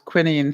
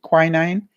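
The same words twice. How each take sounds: First: The word is said with a British pronunciation. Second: The word is said with an American pronunciation. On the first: "in England, we pronounced it as quinine" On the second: "Maybe Americans pronounce it quinine"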